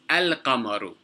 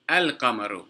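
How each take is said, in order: Both takes have the same delivery.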